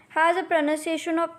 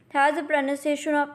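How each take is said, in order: No difference in how they are said.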